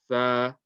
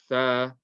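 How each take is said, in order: First: The consonant is a soft th sound. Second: The consonant is a soft th sound.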